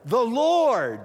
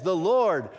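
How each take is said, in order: First: Second "Lord" higher and louder, falling; the preacher stresses "the Lord" to the congregation; emphatic repeat. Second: Said in the usual way. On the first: Shown as a demonstration. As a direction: hit "Lord" harder the second time. Hebrew word order, Lord repeated.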